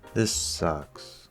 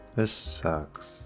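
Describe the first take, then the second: No difference in how they are said.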